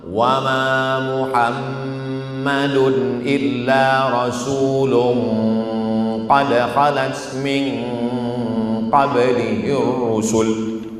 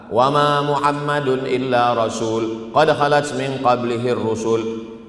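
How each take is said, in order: First: The nasal hum before 'qad' is held long. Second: The nasal hum before 'qad' is cut short.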